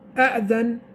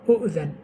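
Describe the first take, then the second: First: The word begins with the vowel a. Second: The word begins with the vowel u.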